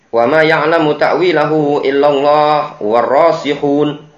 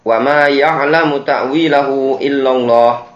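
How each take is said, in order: First: The reading runs on past illallah without pausing. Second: The reading stops with a pause after illallah. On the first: God and those firm in knowledge know its interpretation. "berhenti sampai warasikhuna fil ilmi" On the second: Only God knows its true nature. "Kalau dibaca waqaf, ... berhenti di illallah"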